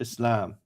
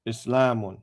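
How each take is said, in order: First: The word ends without the -un ending. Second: The word ends with a full -un ending.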